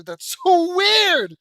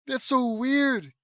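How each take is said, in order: First: High, loud, drawn-out exclamation; laughing cry, stretched way out and pitched high; incredulous outburst. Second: High, loud, slowly stretched words; incredulous repeat. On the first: Reader reacting to an odd story line, incredulous outburst. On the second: Reader repeating reaction to odd line, incredulous exclamation. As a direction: exclaim it slowly with raised pitch. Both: Real, not acted.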